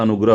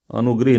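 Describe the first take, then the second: First: अनुग्रह said clearly as anugrah; अनुग्रह spoken the right way, anugrah; correct pronunciation. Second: अनुग्रह said as anugrih, with an i before the h; अनुग्रह with a wrong extra i, anugrih; wrong spelling read out. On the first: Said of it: "अनुग्रह होता है". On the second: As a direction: mispronounce अनुग्रह as anugrih to show the error. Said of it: "अनुग्रह नहीं होता". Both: Shown as a demonstration.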